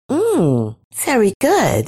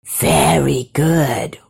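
First: Higher-pitched woman tasting fruit; pleased mmm, then high approval; savouring. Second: Very slow, sly serpent approval; slow, creepy creature murmur; whispering creature. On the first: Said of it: "she said". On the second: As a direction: draw it out insinuatingly, hushed. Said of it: "whispered the creature". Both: A narrator's reading.

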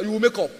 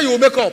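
First: Said in the usual way. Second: "You will make up" said again much louder and firmer; preacher raising his voice to insist; emphatic louder repeat. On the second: Real, not acted. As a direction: drive it home, insist. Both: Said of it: "I said".

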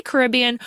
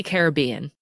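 First: Caribbean stressed on the RIB; stress on second syllable. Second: Caribbean stressed on the BEE; stress on third syllable. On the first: Host asking guest how to say it, Caribbean with stressed RIB. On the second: Host offering the other option, Caribbean with stressed BEE. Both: Shown as a demonstration. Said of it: "How do you say".

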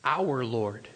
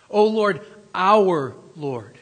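First: Our drawn low and quiet, weighted; preacher singling out the word Our; stress on our. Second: O Lord, our Lord called out much louder; preacher calling the name out loud; loud proclamation. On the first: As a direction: lean on Our in Our Lord. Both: Shown as a demonstration. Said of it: "don't miss that it says".

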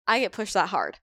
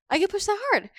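First: Said in the usual way. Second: "I get pushed that hard" repeated much higher, leaning on "that"; emphatic repeat. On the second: Real, not acted. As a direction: echo the line up high in disbelief. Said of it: "Like, I get pushed that hard".

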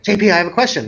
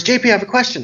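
First: Lightly voiced child, raised pitch; retold child's question. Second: Higher, lightly voiced impatient kid; retold impatient child. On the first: Young boy cutting into adults' serious conversation, lightly imitated child voice. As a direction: imitate a kid interrupting with a question. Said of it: "he goes". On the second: Boy interrupts talking adults a second time, mildly impatient child voice. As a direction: imitate a child tired of waiting. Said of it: "kids get impatient".

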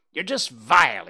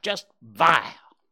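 First: Louder, spat out with a falling end; one jay spits the insult; snapped insult. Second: Slow, loud, higher, vile stretched out; the jay repeats it with contempt; drawn-out insult. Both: Acted. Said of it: "he snapped".

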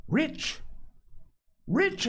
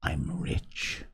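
First: High, insistent exclamation; hotly. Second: Low, hushed secret; whisper. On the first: Castaway repeating his claim to a doubting boy, hotly. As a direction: leap up in pitch, insisting on it. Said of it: "he repeated the statement hotly". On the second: Castaway confiding his secret to the boy, whispered. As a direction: drop right down and whisper it. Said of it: "lowering his voice to a whisper". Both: A narrator's reading.

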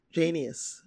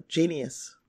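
Both takes have the same delivery.

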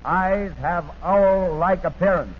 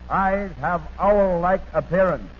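The two takes are said the same way.

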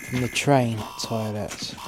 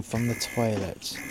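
First: "train" stressed as the added correction; correcting yourself, "train" emphasised. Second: Said in the usual way. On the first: Shown as a demonstration. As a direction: lean on "train", slow.

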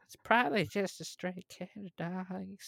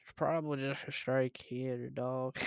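First: Put-on higher-pitched young officer character voice; younger officer's voice. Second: Lightly voiced young officer; younger officer's voice. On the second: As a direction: read it in a slight character voice. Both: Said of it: "read that voice".

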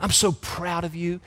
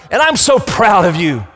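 First: Put-on soft, tender words to a child; tender father. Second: High, loud and proud declaration; the Father proclaiming. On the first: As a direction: say it gently like a loving dad. A loving daddy speaks to child. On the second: Acted. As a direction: announce it from heaven with pride. God's voice declaring pride.

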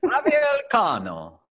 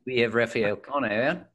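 First: High, drawn-out Spanish accent; hammed-up Spanish accent, pitched way up. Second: Rough attempt at an Australian accent; mock Australian introduction. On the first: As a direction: announce it in a showy, slow Spanish accent. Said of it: "do this in my Spanish accent". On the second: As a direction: put on an amateur Australian accent, slightly higher. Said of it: "Probably better than my Australian accent". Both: Shown as a demonstration.

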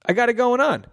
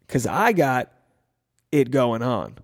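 First: "I got it going on" sung out high, landing hard on "on"; emphatic. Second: Said in the usual way. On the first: Shown as a demonstration. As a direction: lift "on" high and punch it proudly. Repeated line said with emphasis.

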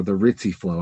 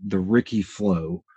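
First: "Ritzy" said as RIT-see; Ricci with TS. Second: "Ricci" said as RICK-ee. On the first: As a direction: say "Ritzy" with a ts sound in the middle. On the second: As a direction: say "Ricci" with a hard k sound in the middle. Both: Shown as a demonstration. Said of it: "I've heard it pronounced both ways".

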